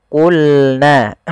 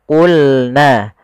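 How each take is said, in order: No difference in how they are said.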